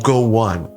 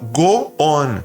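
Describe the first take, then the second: First: The words are joined by a short w glide. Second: The words are said apart, Portuguese style, without a glide. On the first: The speaker calls it right. "e não go on" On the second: The speaker calls it wrong. "ela falava go on"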